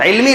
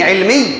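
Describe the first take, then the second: First: The final 'y' sound is short and single. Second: The final 'y' sound is doubled and held. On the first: The speaker calls it wrong. "तो इल्मी नहीं" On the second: The speaker calls it right. "तशद्दुद के साथ बोलना चाहिए"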